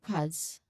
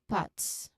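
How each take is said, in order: First: The ending is a buzzing, voiced th-z sound. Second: The ending is a hissing, unvoiced th-s sound. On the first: "and then with voiced T H Z" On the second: "First with the unvoiced T H S"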